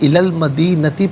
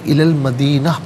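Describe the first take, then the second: First: The last word ends with a 'ti' sound. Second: The last word ends with an open 'a' sound. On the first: The reading continues without stopping. "इलल मदीनती पढ़ेंगे" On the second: The reading stops at this word. "वफ़ की सूरत में इलल मदीना पढ़ेंगे"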